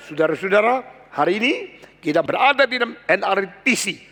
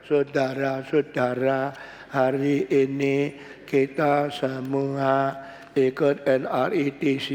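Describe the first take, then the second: First: Lively greeting. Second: Slow, a dull drone; boring monotone. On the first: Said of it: "Tapi saya bilang". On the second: Preacher shows a dull monotone greeting to the congregation. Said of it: "nadanya terus sama". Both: Shown as a demonstration.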